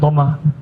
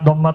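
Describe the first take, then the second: First: The word ends with a vowel. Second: The word ends with a t sound. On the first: The speaker calls it right. "tapi dibaca doma" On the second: The speaker calls it wrong. "nggak dibaca domat ya"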